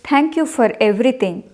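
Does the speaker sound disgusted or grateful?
grateful. It is said in a sincere, grateful tone. The thanks are genuine. "I was telling it really thank you for everything"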